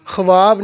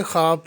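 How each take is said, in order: First: ख्वाब said as khwaab, with the v sounded; ख्वाब voiced khuwaab, the wrong way; wrong pronunciation. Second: ख्वाब said as khaab, the v silent; ख्वाब read khaab, v written but not spoken; correct pronunciation. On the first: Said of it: "ख्वाब नहीं पढ़ेंगे". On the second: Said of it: "ख्वाब पढ़ेंगे". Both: Shown as a demonstration.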